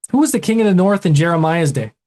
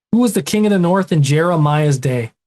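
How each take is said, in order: Both takes have the same delivery.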